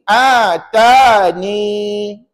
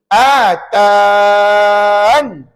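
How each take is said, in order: First: The word ends with a short ni sound. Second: The word ends on a bare n sound. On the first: "kita kekalkan ya dan dibaca begini" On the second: "kita buang ya dan kita baca begini"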